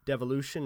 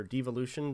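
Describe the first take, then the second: First: "Devolution" said the first way, with short DEV; first pronunciation. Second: "Devolution" said the other way, with long DEE; alternative pronunciation. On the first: Offering listeners one reading of the title, "Devolution" with short DEV. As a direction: say "Devolution" starting like "devil". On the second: Offering listeners another reading of the title, "Devolution" with long DEE. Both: Shown as a demonstration. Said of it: "depending on how you pronounce that word".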